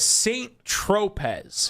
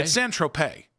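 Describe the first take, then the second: First: Saint Tropez said slowly with the t of Saint sounded and the z of Tropez sounded, like English; slow anglicized Saint Tropez, z at the end; wrong version. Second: Saint Tropez with the final z silent, ending in an ay sound; French-style Saint Tropez, no z at the end; correct version. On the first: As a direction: Saint Tropez with a hard final z. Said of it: "so yesterday I pronounced that". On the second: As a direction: Saint Tropez said as tro-pay. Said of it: "Is how you say it". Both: Shown as a demonstration.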